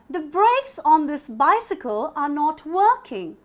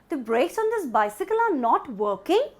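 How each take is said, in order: First: The voice falls at the end. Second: The voice rises at the end. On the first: It states a fact. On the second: It asks a question.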